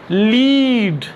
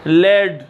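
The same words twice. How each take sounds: First: लीड said as "leed"; lead as leed. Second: लेड said as "led", short e, lower; lead as led. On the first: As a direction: give the long ee of लीड. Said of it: "लीड जब आप पढ़ेंगे". (लीड, लंबी ई के साथ) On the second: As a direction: drop to लेड, the metal word. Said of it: "सिक्का". (लेड, छोटी ए के साथ) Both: Shown as a demonstration.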